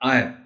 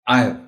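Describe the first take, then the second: First: It is said as one contracted form. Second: The same.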